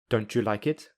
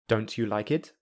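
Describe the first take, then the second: First: The t and y merge into ch. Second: The t and y stay separate sounds. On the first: "I will use linking" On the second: "I will say them without linking"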